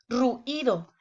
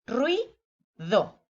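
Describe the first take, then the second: First: "ruido" with a break in the vowels, ru-ido; incorrect syllable split. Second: "Ruido" slowly as rui, pause, do; correct syllable split. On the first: Teacher shows the incorrect way, "ruido" broken ru-ido. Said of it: "Sería incorrecto decir ruido". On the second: Teacher shows it stays together, "Ruido" split rui-do. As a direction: say "Ruido" in two beats, "rui... do", vowels joined. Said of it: "queda junto en una misma sílaba". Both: Shown as a demonstration.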